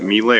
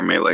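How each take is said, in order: First: First syllable of "melee" rhymes with "me"; MEE-lay pronunciation. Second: First syllable of "melee" rhymes with "may"; MAY-lay pronunciation. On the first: Host asking which is correct, "melee" as MEE-lay. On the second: Host asking about the combat term, "melee" as MAY-lay. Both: Shown as a demonstration. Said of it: "Is it melee or melee combat?".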